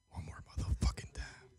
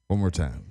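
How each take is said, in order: First: Hushed whisper under breath. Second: Said in the usual way. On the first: Real, not acted. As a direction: breathe the curse out unvoiced. Redialing, whispered curse.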